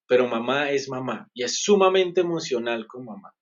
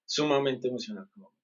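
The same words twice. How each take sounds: First: Said in the usual way. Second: Repeated more softly, sumamente lingering; a quiet afterthought; soft echo. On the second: Real, not acted. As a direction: drop the volume and repeat it to yourself.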